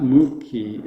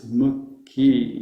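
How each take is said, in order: First: "mukhi" with the U drawn out as moo; wrong long U. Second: "mukhi" with short U and long final I. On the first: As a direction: stretch the U in "mukhi", MOO-khi. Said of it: "But the U is not a long U". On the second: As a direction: keep MU brief, hold KHI in "mukhi". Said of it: "It's not mukhi". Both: Shown as a demonstration.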